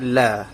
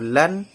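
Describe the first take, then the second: First: The syllable ends in a lengthened vowel. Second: The syllable ends with an n sound. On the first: "kalau diwakafkan ... hanya satu, iaitu la, tetapi panjangnya dua harakat" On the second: "kalau lan dua baris"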